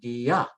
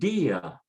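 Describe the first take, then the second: First: The stress is on the second syllable. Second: The stress is on the first syllable. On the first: The speaker calls it wrong. "because the A should be stressed more" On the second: The speaker calls it right. "they want you to stress the weak vowel"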